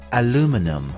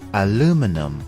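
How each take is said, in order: First: It is said with an American English pronunciation. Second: The same.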